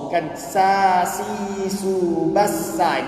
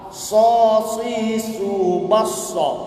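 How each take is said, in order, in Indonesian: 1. Bunyi s itu biasa dan ringan. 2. Bunyi s itu berat dan emfatik. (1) "bukan sa si su bassa, itu sin" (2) "Ni sad"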